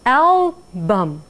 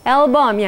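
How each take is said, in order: First: The first syllable is stressed. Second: The first syllable is not stressed. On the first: The speaker calls it right. "first stress 그 부분을 위로 올렸습니다" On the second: The speaker calls it wrong. "아니라"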